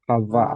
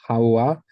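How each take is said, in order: First: The middle is a doubled v consonant. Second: The middle is an oo vowel gliding on. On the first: "if we're doing it as a doubled vav" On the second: "if we were doing it as the the oo sound ... which would be really weird"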